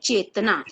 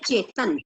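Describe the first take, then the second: First: The name ends with a final 'a' vowel. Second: The name ends on the consonant 'n'. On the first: The speaker calls it wrong. "अगर हम ये ए नहीं हटाएंगे ना तो पढ़ेंगे चेतना" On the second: The speaker calls it right. "जबकि हम क्या पढ़ते हैं"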